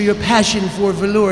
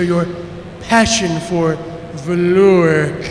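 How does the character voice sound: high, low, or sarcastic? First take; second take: high; sarcastic. First: The voice is pitched noticeably higher. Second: The voice sounds sarcastic and dry. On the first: The character sounds more like a lizard. "he should ha- have a higher pitched voice" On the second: The character mocks his superior. "I want him to sound sarcastic like John Lovitz"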